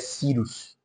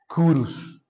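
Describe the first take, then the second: First: The name is pronounced the Brazilian Portuguese way. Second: The name is pronounced the Latin way. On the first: "uma pronúncia mais brasileira seria" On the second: "Em latim seria"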